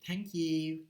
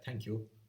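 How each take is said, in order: First: The vowel in 'you' is fronted and shallower. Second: The vowel in 'you' is deep and back. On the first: "it's becoming a front vowel" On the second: "instead of saying thank you, ooh"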